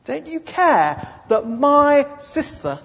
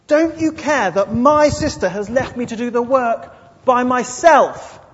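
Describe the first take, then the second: First: High, loud, slow reproach; indignant accusation. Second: Higher, louder, slowing at the end; demanding complaint. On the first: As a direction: stare him down as you accuse. Martha accusing Jesus. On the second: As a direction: demand he take her side. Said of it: "the demanding spirit really comes out". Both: Acted.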